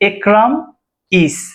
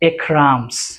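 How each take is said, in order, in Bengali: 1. নাম আর ক্রিয়াটি আলাদাভাবে বলা হয়। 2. ক্রিয়াটি নামের সাথে লেগে একটি s হয়ে যায়। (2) "কন্ট্রাকশন ফর্ম"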